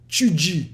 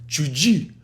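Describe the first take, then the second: First: A hissing sound follows the t and d. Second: A hissing sound follows the t and d.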